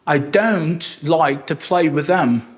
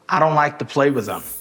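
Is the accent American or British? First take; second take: British; American. First: It is spoken in a British accent. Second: It is spoken in an American accent. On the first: "como britânico" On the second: "como americano"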